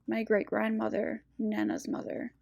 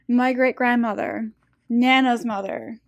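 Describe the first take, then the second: First: It is said at normal, quieter volume. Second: It is said noticeably louder.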